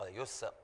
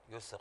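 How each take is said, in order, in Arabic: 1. ينتهي الصوت بارتداد مفاجئ. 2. يخرج صوت السين بسلاسة وانتظام. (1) "الحرف السين صار عندك بحركة، صار كأنما قلق" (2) "يسر لا يسر"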